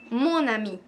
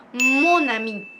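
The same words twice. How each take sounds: First: Said in the usual way. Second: "mon ami" said louder, with weight on "mon"; stressed model. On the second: Shown as a demonstration. Teacher first models the correct form, firmly. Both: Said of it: "vas a decir".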